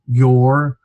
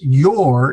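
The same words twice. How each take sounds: First: Said in the usual way. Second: "your" stressed, drawn out with a pitch swell; stretched, contrastive "your"; emphatic your. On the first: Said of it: "but here it's your in contrast". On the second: Shown as a demonstration. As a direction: lean hard on "your" for contrast. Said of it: "in contrast to, say, mine".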